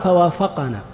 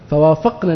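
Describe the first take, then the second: First: A short vowel follows the q sound. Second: No vowel follows the q sound. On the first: The one named after the verb did the agreeing. The speaker calls it wrong. "لو قرأنا فوافقنا، إيش يكون النبي؟ كلمة النبي فاعل" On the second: The speakers did the agreeing. The speaker calls it right. "فوافق بالتسكين ... تقرأ هكذا"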